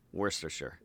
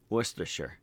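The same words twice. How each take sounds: First: An extra R sound is pronounced in the word. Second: No extra R sound is pronounced in the word. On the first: The speaker calls it wrong. "Why are you saying R?" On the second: The speaker calls it right. "Yeah, there we go"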